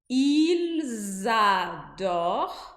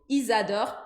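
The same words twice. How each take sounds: First: It is said slowly, each sound given time. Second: It is said quickly, the L barely sounded. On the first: "falando devagar" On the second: "E falando rápido"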